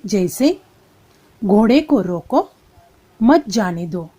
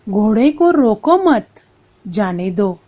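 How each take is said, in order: First: The pause comes right after रोको. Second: The pause comes right after मत.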